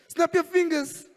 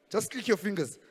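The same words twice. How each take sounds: First: "Snap your fingers" high and slow; high slow call. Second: Said in the usual way. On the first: Shown as a demonstration. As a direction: sing out "Snap" high, stretched slowly.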